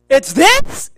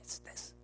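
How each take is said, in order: First: It is said loudly. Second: It is said very quietly.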